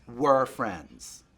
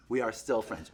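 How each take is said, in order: First: "Were" drawn out and leaned on; stress on WERE. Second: Firm correction leaning on "are"; stress on ARE. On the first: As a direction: pointedly correct to the past tense with "Were". Past tense insisted against present. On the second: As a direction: insist on "are" against the past tense. Present tense insisted against past. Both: Real, not acted.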